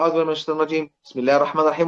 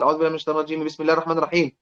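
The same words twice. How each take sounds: First: There is a pause between the two phrases. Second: The two phrases are joined without a pause. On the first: "ينفع أقول" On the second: "وأوصل"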